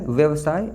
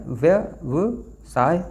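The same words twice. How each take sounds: First: Said in the usual way. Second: व्यवसाय stretched out very slowly, each syllable drawn long. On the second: Shown as a demonstration. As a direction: spell out व्यवसाय slowly for the class. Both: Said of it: "तो व्यवसाय होता है".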